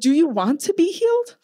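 The question is asked with a sassy, attitude-filled tone. The speaker calls it wrong. "he didn't say it like that. I say it with attitude"

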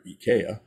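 The name is said the German way.

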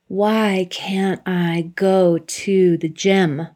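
It sounds frustrated and self-critical.

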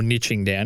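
Niching is pronounced the North American way. "if you're in North America"

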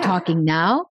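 The voice is relaxed, with air flowing freely.

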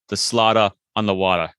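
It is said in a Boston accent.

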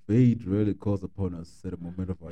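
It is said in a put-on character voice.

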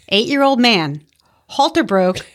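There is a clear pause after man.

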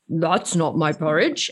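It is said in a low Papa Bear voice.

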